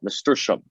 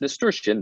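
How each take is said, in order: First: The word ends with an -ium sound. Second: The word ends with an -ian sound. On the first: The speaker calls it wrong. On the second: The speaker calls it right. "the correct term is"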